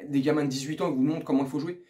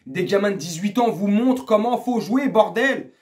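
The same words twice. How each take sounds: First: Said in the usual way. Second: Exasperated repeat. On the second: Real, not acted. Fan scolding players shown up by kids, exasperated. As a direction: drive the point home, fed up.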